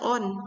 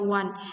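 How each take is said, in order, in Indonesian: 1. Kata ini dimulai dengan vokal biasa, tidak ada w. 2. Kata ini dimulai dengan bunyi w. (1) "jangan dibaca on" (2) "tapi dibaca one"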